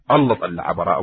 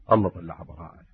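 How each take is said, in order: First: الله طلع براءة at full voice, stress on الله; emphatic repeat. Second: الله طلع براءة said low and hushed; hushed, almost to himself; hushed first statement. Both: Shown as a demonstration. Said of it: "repeated for emphasis".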